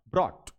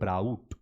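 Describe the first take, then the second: First: The vowel is a plain 'aw' as in saw. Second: The vowel glides like 'ow' in cow. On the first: The speaker calls it right. "ये बोलेगा ऑट ब्रॉट" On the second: The speaker calls it wrong. "इसको गोल करके बोलते हैं ब्राउट। ब्राउट नहीं बोलेगा"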